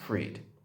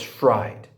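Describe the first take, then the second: First: The vowel sounds like 'ee', as in freed. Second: The vowel sounds like 'eye', as in fried. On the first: The speaker calls it wrong. "they're pronouncing his last name as Freed" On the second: The speaker calls it right. "F R I E D spells fried"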